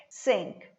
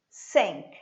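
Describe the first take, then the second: First: The vowel is a short, lax 'i' sound. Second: The vowel is a short, lax 'i' sound.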